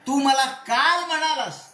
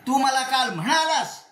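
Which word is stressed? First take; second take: काल; म्हणालास. First: The stress falls on the word काल. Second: The stress falls on the word म्हणालास. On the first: You said it yesterday, not on another day. "परवा तेरवा नाही, काल म्हणलास" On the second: You told me in person, not just by message. "केवळ नुसते S M S टाकला नाही, मला बोललास तू"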